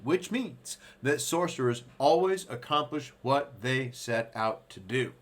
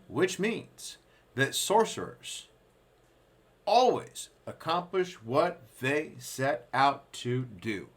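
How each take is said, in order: First: It is read at a faster, normal pace. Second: It is read at a slower pace.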